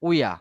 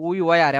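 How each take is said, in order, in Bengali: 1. এটা একটা ছোট, একসাথে জুড়ে যাওয়া রূপে বলা হয়। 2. এটা দুটো আলাদা, পূর্ণ শব্দ হিসেবে বলা হয়।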